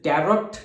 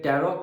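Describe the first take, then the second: First: The word ends with an audible t sound. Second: The word ends on a vowel, no t. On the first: The speaker calls it wrong. "जैसे टैरोट नहीं कहते" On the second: The speaker calls it right. "टैरो कहते हैं"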